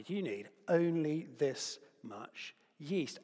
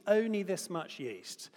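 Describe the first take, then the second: First: Said in the usual way. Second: "Only" higher and louder, slower; "Only" punched for wonder at how little; stress on only. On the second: Shown as a demonstration. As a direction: lean hard on "Only" and slow down. Repeats the yeast amount for effect.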